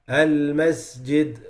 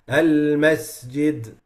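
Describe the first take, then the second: First: The s is said with a weak, light whistle. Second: The same.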